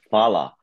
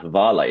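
First: It begins with an F sound, two syllables. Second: It begins with an H sound and extra vowel. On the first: The speaker calls it right. "I couldn't get that F pronunciation" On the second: The speaker calls it wrong. "So I pronounced it as Havala"

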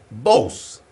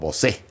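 First: The final E carries no stress. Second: The stress falls on the final E. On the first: The speaker calls it right. "en Estados Unidos... Le dicen Bose" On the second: The speaker calls it wrong. "la gente le pone acento en la E. Y no va así"

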